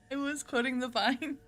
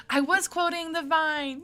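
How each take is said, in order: First: Said in the usual way. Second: High, loud, drawn-out cry; mock protest. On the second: Streamer correcting a viewer about the quote, loud mock protest. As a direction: protest loudly and high, stretching it.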